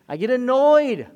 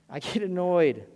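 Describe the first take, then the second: First: Annoyed. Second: Said in the usual way. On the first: Shown as a demonstration.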